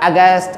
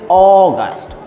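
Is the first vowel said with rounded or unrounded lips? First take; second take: unrounded; rounded. First: The first vowel is said with unrounded lips. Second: The first vowel is said with rounded lips. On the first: The speaker calls it wrong. "It's not August" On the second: The speaker calls it right. "it is August. Oh, your lips should be round"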